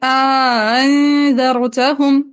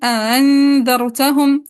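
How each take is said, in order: First: The second hamza is softened, with an alif inserted. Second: The second hamza is softened, with no alif inserted. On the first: "तहसील में इदखाल की pronunciation" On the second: "तहसील बिला इदखाल"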